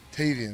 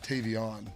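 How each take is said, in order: First: The last syllable sounds like 'an'. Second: The last syllable sounds like 'on'. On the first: The speaker calls it right. "his name is uh, Tavian" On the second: The speaker calls it wrong. "not Tavion"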